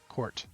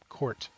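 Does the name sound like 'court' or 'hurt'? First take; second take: court; court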